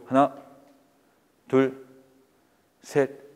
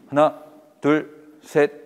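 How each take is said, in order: First: The numbers are counted very slowly. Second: The numbers are counted at a steady moderate pace. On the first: The speaker calls it wrong. "너무 느리죠" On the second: The speaker calls it right. "요 속도예요"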